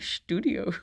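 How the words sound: The word is pronounced the German way. "the German pronunciation takes over"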